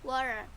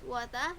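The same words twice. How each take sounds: First: A flapped T sound and a pronounced R. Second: A clear T sound and no final R. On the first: "In American English, it is water, R with a flap T like R, and the R is pronounced" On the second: "In British English, it was water with a clear T and no R"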